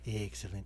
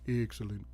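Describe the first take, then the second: First: It is said in the familiar character voice. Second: It is said in an odd, unfamiliar substitute voice. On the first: This is how the character normally sounds. The speaker calls it right. "he doesn't sound like mister Burns. Like excellent" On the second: This is how the replacement performer sounds. The speaker calls it wrong. "It sounds more like excellent. Like it's weird"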